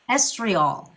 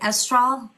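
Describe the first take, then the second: First: The word is said with three syllables. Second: The word is said with two syllables.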